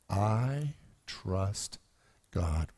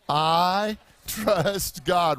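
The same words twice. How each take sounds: First: It is said in a plain, calm tone. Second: It is said with conviction and happiness.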